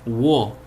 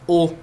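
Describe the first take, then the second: First: It begins with a w sound before o. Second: It is a plain o vowel, no w. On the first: This is the kana's reading in the syllable table. "Na tabela é wo" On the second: This is how it is read as the object particle. "a gente fala o quando ela é partícula"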